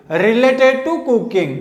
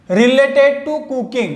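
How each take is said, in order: First: Drawn-out, deliberate; very slow. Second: Each word drawn out; very slow. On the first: Teacher repeating the English meaning very slowly. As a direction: stretch every word of related to cooking. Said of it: "repeat slowly". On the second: Teacher giving the English meaning very slowly. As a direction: say related to cooking very slowly. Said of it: "slow English gloss". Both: Shown as a demonstration.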